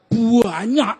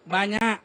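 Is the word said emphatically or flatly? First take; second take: emphatically; flatly. First: The word is said with strong, drawn-out emphasis. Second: The word is said flatly, without emphasis. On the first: It truly sounds like a lot. The speaker calls it right. "Wih, banyak. Ah, itu baru mantap itu" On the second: It does not sound like a lot. The speaker calls it wrong. "Nggak banyak itu sama orang Jawa"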